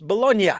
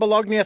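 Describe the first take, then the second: First: The G sound is left silent. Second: The G sound is clearly pronounced. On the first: The speaker calls it right. "and it's Bologna" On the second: The speaker calls it wrong. "I just pronounced uh, the G"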